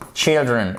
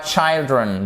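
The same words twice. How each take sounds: First: Put-on "children" with a short I, CHILL-dren; correct short i. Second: Put-on "children" mispronounced as CHILE-dren, with the vowel of "child"; wrong long i. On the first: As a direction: say the first vowel of "children" as in "chill". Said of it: "la prononciation du i". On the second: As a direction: say "children" wrongly with an EYE sound. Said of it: "et pas children". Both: Shown as a demonstration.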